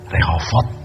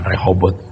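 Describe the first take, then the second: First: The middle consonant is a v sound. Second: The middle consonant is a b sound. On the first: This is the original Hebrew form. The speaker calls it right. "Sebenarnya sebutan kata Rehobot yang tepat Rehovot" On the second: This is the form adapted to Indonesian. The speaker calls it wrong. "Sebenarnya kata Rehobot bukan Rehobot"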